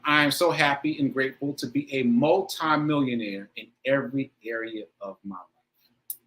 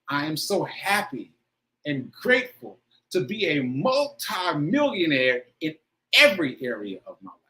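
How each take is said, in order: First: It is said plainly, without strong emotion. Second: It is said with strong, expressive emotion.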